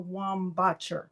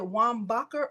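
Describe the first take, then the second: First: "Wambacher" with ch as in church; ch pronunciation. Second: "Wambacher" with a hard k in the middle; hard k pronunciation. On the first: Host checking a winner's surname, "Wambacher" with a ch sound. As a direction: say "Wambacher" as wam-BAH-cher. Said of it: "With a C H". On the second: Host checking a winner's surname, "Wambacher" with a k sound. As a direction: say "Wambacher" as wam-BAH-ker. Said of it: "or k, k, k, k". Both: Shown as a demonstration.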